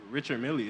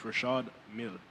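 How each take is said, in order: First: The first name sounds like English 'Richard'. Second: The first name sounds like 'Rashad'. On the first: The speaker calls it wrong. "isn't pronounced" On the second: The speaker calls it right. "that's how you say it"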